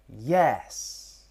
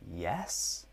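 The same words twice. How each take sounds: First: The pitch rises and then falls. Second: The pitch rises through the word. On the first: It sounds like an emphatic statement. "The third tone choice is rise and fall" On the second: It sounds like a question or part of a list. "So yes in the rise would be"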